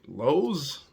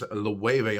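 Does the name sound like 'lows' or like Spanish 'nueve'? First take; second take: lows; nueve. First: The name sounds like the English word 'lows'. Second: The name sounds like Spanish 'nueve' with an L. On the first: The speaker calls it wrong. "when I first seen it, I was like" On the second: The speaker calls it right. "almost like the number nine Loewe"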